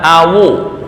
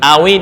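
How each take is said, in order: First: The word ends with a u vowel. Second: The word ends with an i vowel. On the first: This is an alternative accepted reading. "dibaca awu" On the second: This is the common standard reading. "Ini awi"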